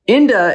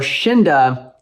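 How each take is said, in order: First: The name begins with a vowel sound. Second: The name begins with a 'sh' sound. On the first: "if the X is silent" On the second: "if the English alphabet is useless for this brand"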